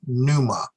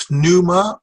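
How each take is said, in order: First: Second "pneuma" as NOO-mah, P silent. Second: First "pneuma" with the P sounded, p-NOO-mah; pronounced P. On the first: Teacher giving own preference, "pneuma" as NOO-mah. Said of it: "I keep the P silent". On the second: Teacher offering both options, "pneuma" with audible P. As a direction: pop the P at the start of "pneuma". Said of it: "some people will put the P". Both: Shown as a demonstration.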